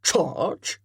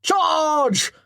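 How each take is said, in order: First: Puzzled echo of the word Charge; questioning echo. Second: High loud battle cry; shouting. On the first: Colonel querying Chatton's battle cry, puzzled echo. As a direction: repeat it back, doubtful. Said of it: "echoed the colonel". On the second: Chatton playing a charging Viking, shouting loudly. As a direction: roar it as you rush in. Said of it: "Baring his teeth and shouting". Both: Acted.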